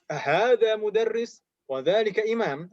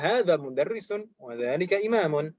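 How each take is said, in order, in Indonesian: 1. Akhiran vokal di akhir kata benda dihilangkan. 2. Akhiran vokal di akhir kata benda dibaca.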